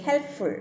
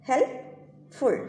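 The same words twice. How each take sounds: First: Said in the usual way. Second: ഹെൽപ്ഫുൾ said very slowly, split into syllables; drawn-out ഹെൽപ്ഫുൾ, syllable by syllable; slow syllable-split word. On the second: Shown as a demonstration. Teacher to students, sounding ഹെൽപ്ഫുൾ out slowly. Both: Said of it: "okay, ഹെൽപ്ഫുൾ".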